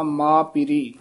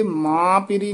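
First: ਮਾਂ ਪੀਰੀ as plain maa piri, oral vowel; without nasalisation. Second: ਮਾਂ ਪੀਰੀ with a nasalised first vowel; wrong nasal sound. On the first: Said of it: "ਨਾਸਕੀ ਉਚਾਰਨ ਤੋਂ ਰਹਿਤ". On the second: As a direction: hum the vowel of ਮਾਂ through the nose. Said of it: "ਮਾਂ ਪੀਰੀ ਨਹੀਂ ਕਹਿਣਾ". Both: Shown as a demonstration.

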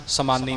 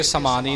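First: ਸਮਾਨੀ with a heavy n, "samanni"; doubled n. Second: ਸਮਾਨੀ with long aa and light n; wrong single n. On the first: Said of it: "ਸਮਾਨੀ ਬੋਲਣਾ ਹੈ". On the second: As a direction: demonstrate ਸਮਾਨੀ as "samaa-nee". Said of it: "ਇੱਥੇ ਸਮਾਨੀ ਨਹੀਂ ਕਹਿਣਾ". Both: Shown as a demonstration.

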